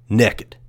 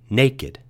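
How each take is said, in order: First: The word has an East Texas pronunciation. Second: The word has a general, non-regional pronunciation. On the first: "I was born and raised in East Texas, so the way I usually say that word is like this" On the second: "as most people probably do, outside of East Texas"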